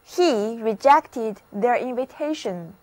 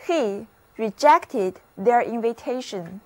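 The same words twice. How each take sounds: The two takes are said the same way.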